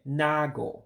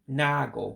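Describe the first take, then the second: First: The vowel after n is single, one a sound. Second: The same.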